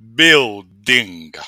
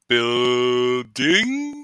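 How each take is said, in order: First: The u vowel is barely heard. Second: The u vowel is clearly sounded. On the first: The speaker calls it right. "the U doesn't last that long in the word" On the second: The speaker calls it wrong. "not even a word"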